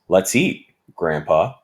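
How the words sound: There is a brief pause before Grandpa.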